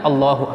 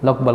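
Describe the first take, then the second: First: Every syllable of the phrase is pronounced fully. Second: The phrase is slurred into one short word. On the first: It carries its meaning. The speaker calls it right. "Yang ada artinya" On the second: It has no meaning. The speaker calls it wrong. "Tidak ada artinya itu"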